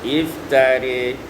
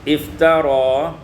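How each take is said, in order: First: The last vowel is tilted toward i. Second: The last vowel is a plain open a.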